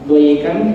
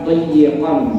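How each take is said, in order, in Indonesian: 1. Konsonan tengahnya pendek dan tunggal. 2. Konsonan tengahnya dobel dan ditahan. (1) "tidak pakai tasdid" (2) "pakai tasdid"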